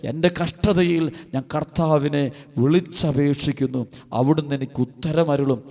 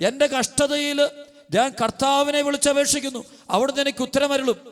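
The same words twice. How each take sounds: First: Slow verse reading. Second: High, ringing sermon proclamation; proclaimed verse. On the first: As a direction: let each word of the verse settle. Verse repeated slowly, lower. (വചനം സാവധാനം താഴ്ന്ന സ്വരത്തിൽ) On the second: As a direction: cry the verse out to the congregation. (ഉയർന്ന സ്വരത്തിൽ വചനം ഘോഷിക്കുന്നു) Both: Acted.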